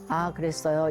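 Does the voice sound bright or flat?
flat. The voice is low and flat. The speaker calls it wrong. "이거보다"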